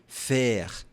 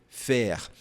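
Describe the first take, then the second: Both takes have the same delivery.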